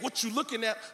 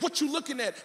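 First: It sounds sure of himself, challenging. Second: It sounds unsure, a real plea.

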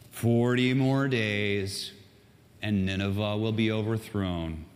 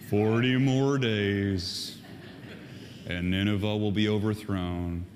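First: It is said in a normal reading voice. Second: It is said in a gloomy Eeyore voice.

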